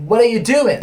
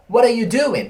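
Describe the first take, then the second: First: Said quickly with words run together and reduced. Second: Said quickly with words run together and reduced.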